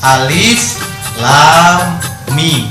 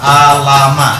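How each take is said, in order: First: Each letter is spoken by its full name. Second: The letters are run together as short syllables. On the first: The speaker calls it right. "bacanya alif lam mim. Itu dibaca aslinya" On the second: The speaker calls it wrong. "tidak boleh dibaca alama"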